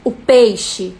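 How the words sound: It is said in an angry, harsh tone. "um peixe raivoso"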